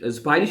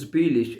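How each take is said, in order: First: The vowel in spiel sounds like eye. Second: The vowel in spiel sounds like ee. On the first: The speaker calls it wrong. "स्पाइलिश नहीं कहना है इसको" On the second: The speaker calls it right. "Cost पढ़ेंगे पहले, कॉस्ट स्पीलिश"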